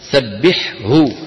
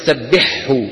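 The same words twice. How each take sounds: First: Both throat sounds are said separately and clearly. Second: The second throat sound merges into the first. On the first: The speaker calls it right. "لا تدغم الحاء في الهاء" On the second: The speaker calls it wrong. "يدغمون الثاني في الأول فيقولون سبحه"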